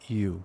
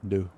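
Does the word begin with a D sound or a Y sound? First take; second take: Y sound; D sound. First: The word begins with a y sound. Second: The word begins with a hard d sound. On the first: The speaker calls it right. "you would say that" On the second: The speaker calls it wrong. "You don't say"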